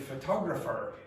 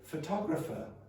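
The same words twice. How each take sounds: First: The final r sound is silent. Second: The final r sound is pronounced. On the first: The speaker calls it right. "I would say photographer" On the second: The speaker calls it wrong. "I would not say photographer"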